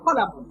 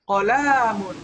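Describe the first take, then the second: First: All the vowels are kept short. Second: The vowels are drawn out long. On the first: The speaker calls it right. "Yang betul adalah dibacanya pendek semua" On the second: The speaker calls it wrong. "Ini panjang. Nah, ini ini salah"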